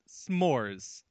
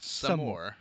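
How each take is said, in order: First: The word is said as one syllable. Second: The word is said as two syllables. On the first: The speaker calls it right. "One syllable" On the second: The speaker calls it wrong.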